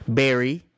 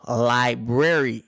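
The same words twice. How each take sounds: First: Berry said as a quick clipped ending of library; clipped southern berry. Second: Library said slowly with every syllable, li-brar-y; mother's correct library. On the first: Shown as a demonstration. Kids from the South dropping sounds: clipped berry. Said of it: "most people would say library". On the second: Retold or imitated. Mother correcting her kids: slow careful library. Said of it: "My mom would say, "No, library".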